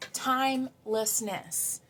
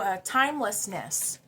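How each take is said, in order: First: "timelessness" drawn out slowly, each syllable lingered on; slow savoured word. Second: Said in the usual way. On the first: Shown as a demonstration.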